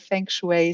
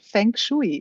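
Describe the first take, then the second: First: It is pronounced with English sounds. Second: It is pronounced with German sounds. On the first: "in English, I say feng shui" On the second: "as I'm a German, I pronounce it feng shui"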